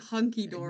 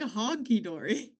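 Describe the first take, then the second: First: The first word has an 'uh' vowel. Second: The first word has an 'aw' vowel. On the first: The speaker calls it right. "It's technically hunky dory" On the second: The speaker calls it wrong. "I didn't even say it right"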